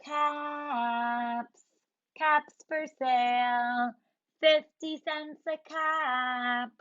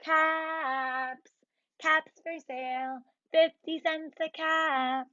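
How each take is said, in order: First: Slow sing-song street call; peddler calling. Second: Lightly sung street call; peddler call. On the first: Acted. Peddler walking to town calling his caps, slow. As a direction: call out wares while strolling. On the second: Shown as a demonstration. Teacher showing kids the peddler's call. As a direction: demo the cap-seller's cry for kids. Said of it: "you can go around and say".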